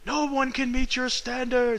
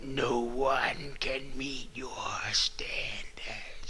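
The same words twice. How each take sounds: First: It is yelled loudly. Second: It is said in a low demonic voice.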